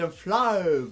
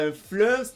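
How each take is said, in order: First: The vowel has a small a sound added. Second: The vowel is plain, with no added a sound. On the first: The speaker calls it right. "Le E se prononce A E" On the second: The speaker calls it wrong. "Pas un fleuve"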